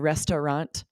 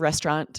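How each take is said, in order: First: The word is said with three syllables. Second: The word is said with two syllables. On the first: "I'll make it three syllables" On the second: "when I'm speaking quickly"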